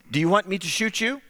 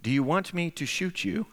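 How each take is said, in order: First: Said in the usual way. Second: Softer, measured, calm threat. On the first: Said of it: "in English, I, he responds". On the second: Retold or imitated. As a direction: imitate a gunman asking calmly and quietly. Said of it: "very calmly he says".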